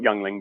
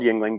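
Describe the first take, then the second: First: The first syllable sounds like 'young'. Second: The first syllable sounds like 'ying'. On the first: "but I call it Youngling because you know I'm Canadian" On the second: "I know it's called Yingling"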